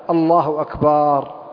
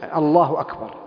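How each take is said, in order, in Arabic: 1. الحرف بعد الباء ممدود وطويل. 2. الحرف بعد الباء يبقى قصيرًا. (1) "الخطأ الأشهر في كلمة أكبر مد الباء أو وضع ألف بعد الباء" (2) "التكبير جزم"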